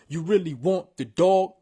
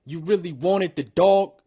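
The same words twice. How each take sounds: First: Said in the usual way. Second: "wanted" with the added syllable, rising end; extra syllable in wanted. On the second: Shown as a demonstration. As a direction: land the extra beat on "wanted". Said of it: "Boom, you fixed it".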